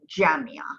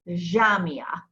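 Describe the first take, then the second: First: It starts with a j sound. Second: It starts with a soft zh sound. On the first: This is the standard form used everywhere. "the modern standard pronunciation of the Jim is Ja" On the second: This is how Lebanese speakers say it. "Lebanese, Jamia"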